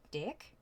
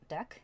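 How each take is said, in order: First: "Deck?" with a laugh and a raised question tune; Minnesota deck. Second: Said in the usual way. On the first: Shown as a demonstration. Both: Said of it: "suddenly we got a Minnesota accent".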